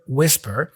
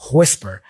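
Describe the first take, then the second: First: The first sound is plain, without extra air. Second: The first sound has an extra puff of air. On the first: "we usually say whisper" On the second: "there's this extra puff of air that he is employing here"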